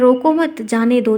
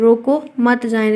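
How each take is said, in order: First: There is a pause right after 'mat'. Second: There is a pause right after 'roko'.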